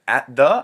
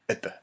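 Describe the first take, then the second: First: The words are said fully and separately. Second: The words are said weakly and squeezed together. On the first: The speaker calls it wrong. "Instead of at the" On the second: The speaker calls it right. "I said at the"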